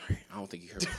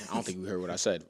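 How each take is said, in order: First: Hushed, breathy whisper; whispered aside. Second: Said in the usual way. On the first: Pretend. Whispering as a fake team exec on the phone. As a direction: drop to a whisper mid pretend call.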